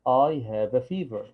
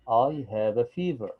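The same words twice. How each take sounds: The two takes are said the same way.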